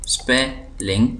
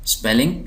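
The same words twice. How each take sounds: First: spelling slowly as SPE, ling; syllable by syllable. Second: Said in the usual way. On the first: Shown as a demonstration. Teacher showing two syllables, spelling slowly split. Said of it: "दो syllable हैं". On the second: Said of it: "दो syllable".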